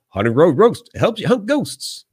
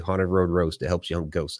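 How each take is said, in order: First: It is said in a put-on character voice. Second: It is said in a normal voice.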